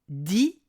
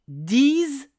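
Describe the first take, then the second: First: The final consonant is silent. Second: The final consonant is pronounced as z. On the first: "s'il est suivi d'un mot commençant par une consonne" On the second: "si le mot qui suit commence par une voyelle ou un H muet"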